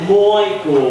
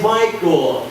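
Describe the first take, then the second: First: The name is said in an Australian accent. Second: The name is said in an American accent. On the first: "I said Michael when I'm Australian" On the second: "but really when I'm American"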